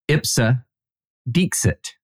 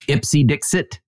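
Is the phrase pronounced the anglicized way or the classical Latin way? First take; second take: classical; anglicized. First: It is pronounced the classical Latin way. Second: It is pronounced the anglicized English way. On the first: The speaker calls it right. "but it is Ipsa Dixit" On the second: The speaker calls it wrong. "which is how I pronounce it. That is not how it's pronounced"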